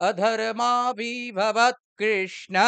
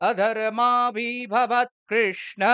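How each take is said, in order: The two takes are said the same way.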